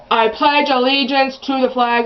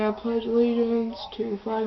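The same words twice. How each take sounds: First: Mom's pledge said a bit loud; loud and obnoxious. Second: Quiet mumble. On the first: Mom reciting the pledge in the office, loud and obnoxious. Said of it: "friggin' loud and obnoxious". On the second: Embarrassed girl reciting beside her mom, quiet. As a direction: pledge said much softer. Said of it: "I just stood up and I'm going". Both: Retold or imitated.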